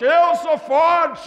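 It is said forcefully, with strong conviction.

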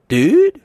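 It sounds like a frightened question.

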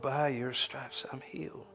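It is said in a warm, worshipful way.

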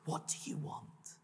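It is asked in a sincere, caring tone.

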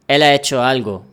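The words are joined together smoothly.

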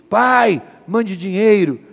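It is said in a harsh, angry tone.

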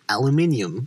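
It uses the speaker's non-American pronunciation. "how we say it"

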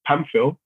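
The name is said the English way.

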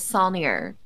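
The name is said with a Texas pronunciation. The speaker calls it wrong. "The Texas pronunciation"

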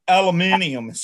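The word is said in the non-American form. "Other English-speaking countries, it's aluminium"

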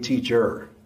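The word is said in a non-Jamaican accent. "in Jamaica, we don't say teacher"

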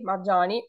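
It is said in another southern form, marjani. "in other southern areas is Marjani"

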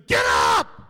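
It is said in a forceful, impatient tone.

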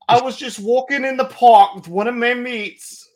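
It is read in a put-on British-Irish accent.

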